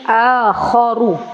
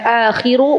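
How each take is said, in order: First: The vowel after kh is a. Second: The vowel after kh is i. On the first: The speaker calls it right. "tapi akharu" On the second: The speaker calls it wrong. "bukan akhiru"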